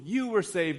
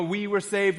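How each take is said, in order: First: You hit firmly, saved falling; stress on you. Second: Said in the usual way. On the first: Shown as a demonstration. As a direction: lean hard on the word you. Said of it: "it's just more forceful". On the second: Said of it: "it's nice to have the "we" and stuff".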